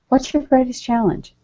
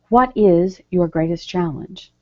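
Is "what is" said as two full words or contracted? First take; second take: contracted; full. First: "What is" is contracted to "what's". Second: "What is" is said as two full words. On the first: It sounds like natural conversation. The speaker calls it right. "We usually say in a conversation tone" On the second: It sounds formal rather than conversational. The speaker calls it wrong. "we don't say"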